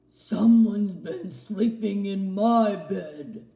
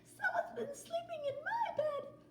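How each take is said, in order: First: It is said in a deep growling voice. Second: It is said in a high squeaky voice.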